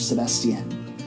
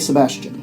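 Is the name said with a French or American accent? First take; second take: French; American. First: The name is said with a French accent. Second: The name is said with an American accent.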